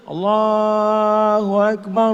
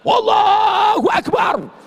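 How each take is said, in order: First: It is said slowly and softly. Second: It is said loudly and forcefully. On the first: The call has no power to drive anything away. The speaker calls it wrong. "Ini sekarang orang azan slow" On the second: The call is strong enough to shake the mosque. The speaker calls it right. "masjid bergetar karena azan"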